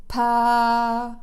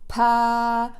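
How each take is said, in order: The two takes are said the same way.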